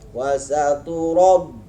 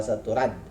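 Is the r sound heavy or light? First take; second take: heavy; light. First: The r is heavy with a full, rounded vowel. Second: The r is light with a thin, front vowel. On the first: The speaker calls it right. "Bukan dibaca tarkik" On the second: The speaker calls it wrong. "Salah itu kalau wasatu rad"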